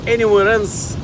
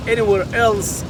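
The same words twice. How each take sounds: The two takes are said the same way.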